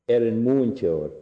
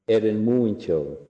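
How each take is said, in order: The two takes are said the same way.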